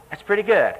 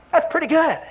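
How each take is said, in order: First: Said in the usual way. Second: Much higher, admiring burst; high, impressed exclaim; admiring exclamation. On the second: Real, not acted. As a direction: sound impressed.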